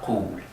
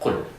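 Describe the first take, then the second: First: The vowel is drawn out as a long oo. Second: The vowel is short, with no long oo. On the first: The speaker calls it wrong. "not qul" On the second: The speaker calls it right. "Short with no long oo sound. Just qul"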